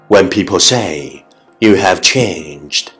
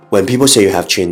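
First: It is said at a moderate, even pace. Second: It is said very fast, in one breath.

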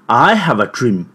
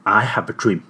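First: It is said at a medium pitch. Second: It is said at a low pitch.

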